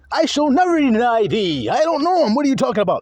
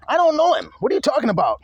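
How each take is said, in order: First: Louder, higher defensive protest; Peter denying. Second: Higher, defensive denial; Peter denying. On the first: Preacher replaying Peter's denial, louder and high. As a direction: insist you never knew him. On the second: Preacher voicing Peter denying Jesus, defensive and high. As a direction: brush it off like a scared liar. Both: Retold or imitated.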